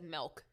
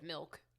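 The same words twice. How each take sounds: First: It is said with a Canadian-sounding vowel. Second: It is said with a plain, standard vowel. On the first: This imitates how an older relative says it. "She says things funny. She says milk" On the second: This is how the word is usually said. "instead of milk"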